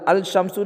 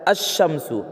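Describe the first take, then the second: First: The L is pronounced before the sh sound. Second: The L merges into a doubled sh sound. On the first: The speaker calls it wrong. "अल अल शम्सु नहीं पढ़ता" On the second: The speaker calls it right. "लाम का तलफ़ुज़ नहीं होता"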